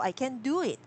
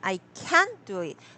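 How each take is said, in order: First: The word can is unstressed. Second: The word can is stressed.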